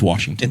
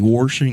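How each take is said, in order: First: It is said in the Newcastle crowd's way. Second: It is said in the south-of-forty district way.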